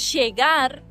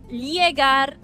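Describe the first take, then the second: First: The ll sounds like an English sh. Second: The ll sounds like a palatal ly. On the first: "como si fuese C H en tu caso y S H en el nuestro" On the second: "como si fuese L H en tu caso y li para nosotros"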